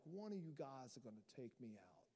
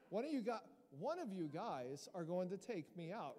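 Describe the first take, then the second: First: Low, hushed mob boss impression; amateur mobster menace, pitched down; mafia boss. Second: Mock-proper, neatly enunciated line. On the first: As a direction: do the Godfather, low and soft. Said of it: "like some mafia boss sitting there". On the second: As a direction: say it very properly, no mob voice. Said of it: "I'm just imagining this and very proper".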